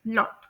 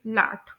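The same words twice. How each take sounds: First: लॉट with a short rounded o; British pronunciation. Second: लाट with a broad open aa, lips unrounded; American pronunciation. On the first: Teacher modelling British short rounded o. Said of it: "rounded ओ की sound आएगी यहाँ पर". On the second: Teacher modelling American broad aa. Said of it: "American English के according इसे pronounce करेंगे". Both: Shown as a demonstration.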